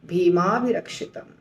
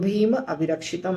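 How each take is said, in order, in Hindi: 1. दोनों शब्द मिलकर एक शब्द बन जाते हैं। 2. दोनों शब्द अलग-अलग, बिना जोड़े बोले जाते हैं। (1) "भी हो जाएगा भीमाभिरक्षितम"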